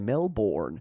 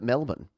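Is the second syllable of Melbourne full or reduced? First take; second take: full; reduced. First: The second syllable is a full 'bourne'. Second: The second syllable is short and reduced. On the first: This follows the spelling, as outsiders say it. "they might say Melbourne because that's how you spell it" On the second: This is how locals say it. "we pronounce it Melbourne"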